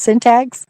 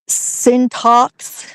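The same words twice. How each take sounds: First: The word has a plain, standard pronunciation. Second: The word has an odd, slightly accented pronunciation. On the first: This is how the word should be said. The speaker calls it right. "It should be syntax" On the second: This imitates how the machine voice said it. The speaker calls it wrong. "they said, uh, syntax instead of syntax"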